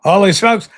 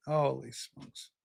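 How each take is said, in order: First: A loud holy smokes, punched out; loud amazed holy smokes; loud exclamation. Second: A slow, hushed holy smokes, drawn out and much softer; hushed stunned holy smokes; quiet awe. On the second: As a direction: breathe it out low and slow in disbelief. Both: Real, not acted. Host reacting to chat.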